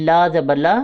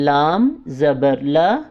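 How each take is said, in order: First: The first letter name is cut short to 'laa'. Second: The first letter name is said in full, 'laam'. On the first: The speaker calls it wrong. "हमने हरफ को आधा आधा नहीं पढ़ना, जैसा कि अक्सर लोग गलती करते हैं" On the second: The speaker calls it right. "इसको हमने पूरा अदा करना है"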